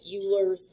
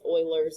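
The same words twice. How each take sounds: First: The name is read the English way. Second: The name is read a non-English way. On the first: The speaker calls it wrong. "this looks like Euler's" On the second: The speaker calls it right. "is not English and not an English name. It's Euler's is how you pronounce it"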